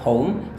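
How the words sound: It is said with an American accent. "Amerika itu adalah poem"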